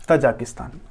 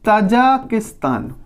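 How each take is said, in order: First: Said in the usual way. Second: Tajikistan said very slowly; slow drawn-out name. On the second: Shown as a demonstration. Teacher to pupils, slowly naming a country on the map. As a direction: draw out Tajikistan for the class. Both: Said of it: "Kyrgyzstan के नीचे है".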